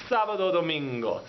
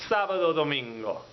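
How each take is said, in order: Both takes have the same delivery.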